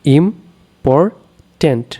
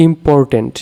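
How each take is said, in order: First: ইম্পর্ট্যান্ট very slow, with long gaps between its three syllables; three separate syllables. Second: Said in the usual way. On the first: Shown as a demonstration. Teacher counting syllables for students, ইম্পর্ট্যান্ট in three isolated pieces. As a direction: break ইম্পর্ট্যান্ট into im, por, tant. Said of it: "আমরা এখানে তিনটি syllable". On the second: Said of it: "উচ্চারণ অনুযায়ী ভাগ করলে".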